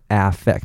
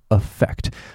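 First: The first vowel is a full, open 'a' sound. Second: The first vowel is a short, reduced weak sound. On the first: The speaker calls it wrong. "不要念成affect，因为A 念a 不是这样子" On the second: The speaker calls it right. "它是它发affect"

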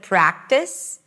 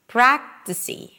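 First: The word ends cleanly on the S sound. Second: A tiny E vowel is added after the S. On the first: The speaker calls it right. "Instead of practice" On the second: The speaker calls it wrong. "people just add another vowel"

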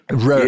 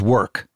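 First: The word is said in an Austrian-style impression. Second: The word is said in a plain voice. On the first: "For Arnold, it's predicated on the word rurk" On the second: "which is work"

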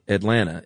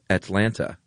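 First: The T sounds are softened toward D and N. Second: The T sounds are pronounced crisply and clearly. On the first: This is how locals say it. "It would be spelled A-D-L-A-N-N-A" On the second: This is not how locals say it. "no one from Atlanta says Atlanta"

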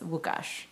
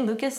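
First: It starts with W and ends in sh. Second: It starts with L and ends in s. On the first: The speaker calls it right. "the L's like a W ... you do that zh at the end ... like this" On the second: The speaker calls it wrong. "do you say Lucas in Polish?"

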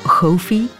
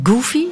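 First: The name is pronounced the Dutch way. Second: The name is pronounced the English way.

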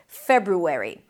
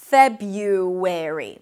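First: The first R is pronounced before the U. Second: The first R is dropped, with a Y sound.

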